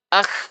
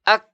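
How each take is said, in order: First: The sound flows on without any stop. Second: The sound is stopped briefly, then released. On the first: The speaker calls it wrong. "suara kita mengalir, mengalir terus" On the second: The speaker calls it right. "tertahan dulu. Ak. Lepas"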